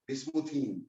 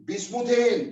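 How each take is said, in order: First: बिस्मुथीन said much lower and softer with a long "een"; बिस्मुथीन, dropped low and soft, ending on "een"; pet name. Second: बिस्मुथेन said higher, ending on "en"; बिस्मुथेन, rising as if announcing it, with "en"; formal IUPAC name. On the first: Teacher giving the fond home name, बिस्मुथीन low and soft. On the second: Teacher naming it for students, बिस्मुथेन with a raised "en". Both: Shown as a demonstration. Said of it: "प्यार वाले नाम है घर के".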